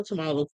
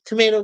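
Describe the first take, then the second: First: Tomato said as to-MAH-to; alternative pronunciation. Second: Said in the usual way. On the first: Shown as a demonstration. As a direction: say tomato with a broad "ah" in the middle. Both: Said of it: "I say it either way".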